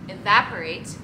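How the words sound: It is said with an American accent. This is how the listener says it. "You say evaporate"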